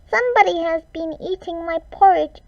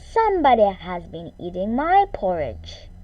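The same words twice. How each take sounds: First: It is said in a tiny, squeaky voice. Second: It is said in a medium, middle-pitched voice. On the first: A very small creature is speaking. "He squeaked in his tiny, teeny tiny voice" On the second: A middle-sized creature is speaking. "In her medium-sized voice she said"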